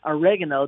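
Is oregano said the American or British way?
American. It is said the American way. "I say oregano"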